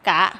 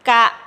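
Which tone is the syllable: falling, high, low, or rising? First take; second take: rising; low. First: The syllable is said with a rising tone. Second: The syllable is said with a low tone. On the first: "กะไม่จัตวากะ" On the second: "คำว่ากะเป็นเสียงเอกนะคะ"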